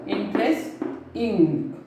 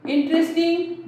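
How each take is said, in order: First: "Interesting" slowly broken as interest, pause, ing; split into syllables. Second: Said in the usual way. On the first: Shown as a demonstration. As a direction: pull "Interesting" apart into interest and a separate ing. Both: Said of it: "It is also two syllable".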